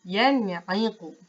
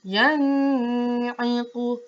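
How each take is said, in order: First: Yan'iqu, nun clear, no hum; clean, careful, unhurried; the right way to read it; correct reading. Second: Yan'iqu with the nun hummed long through the nose; very slow, hummed nun; demonstrating the mistake; wrong nasal reading. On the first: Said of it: "Bacaan yang betul". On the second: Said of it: "Itu bacaan yang salah". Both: Shown as a demonstration.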